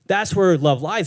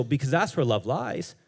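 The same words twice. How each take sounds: First: "That's where love lies" slower and louder, leaning on "where"; emphatic repeat. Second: Said in the usual way. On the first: Shown as a demonstration. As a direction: repeat it slowly and hit "where".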